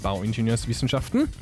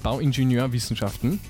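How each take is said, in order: First: An s sound joins the two word parts. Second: No s sound joins the two word parts. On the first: The speaker calls it wrong. "ich habe es wieder falsch gemacht" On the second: The speaker calls it right. "ohne S"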